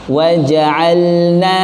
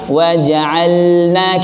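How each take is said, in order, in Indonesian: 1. Bunyi L diucapkan dengan jelas sebelum N. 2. Bunyi L diucapkan dengan jelas sebelum N.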